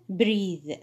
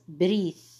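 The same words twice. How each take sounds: First: The th sound is voiced. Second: The th sound is voiceless. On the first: The speaker calls it right. "Voiced TH at the end of the word" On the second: The speaker calls it wrong. "before I confused between voiceless TH and voiced TH"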